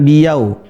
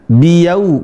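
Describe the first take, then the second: First: "biyau" as a wrong example, ending in a short glide; contoh salah. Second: "biyau" with a clear, drawn-out u ending; u di akhir. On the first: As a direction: cut the final u of "biyau" into a glide. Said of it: "bukan biyau". ("biyau" dengan akhir pendek, tanpa u penuh) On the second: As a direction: say "biyau" slowly, rounding out into a full u. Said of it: "tapi pakai u". ("biyau" dengan bunyi u yang jelas di akhir) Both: Shown as a demonstration.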